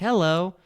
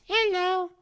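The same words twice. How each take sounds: First: It is said in a normal voice. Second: It is said in a high chipmunk voice.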